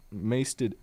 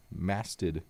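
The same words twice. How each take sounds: First: "masted" with a long A, like "maysted"; mispronounced masted. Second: Said in the usual way. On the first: Real, not acted. Reader slips describing the ship, "masted" as "maysted". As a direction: say "masted" to rhyme with "pasted". Slip, corrected right after.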